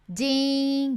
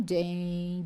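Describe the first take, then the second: First: Ding said as "dee", open. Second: Ding lower, closed i, like "deng"; ding with a tight closed i. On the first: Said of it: "i aberto". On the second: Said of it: "ele é fechado". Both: Shown as a demonstration.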